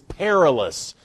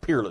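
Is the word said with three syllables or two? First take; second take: three; two. First: The word is said as three syllables, per-i-lous. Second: The word is said as two syllables, peer-less. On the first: The speaker calls it right. "It's not peerless. It's perilous" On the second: The speaker calls it wrong. "I used to have a pastor who called that peerless"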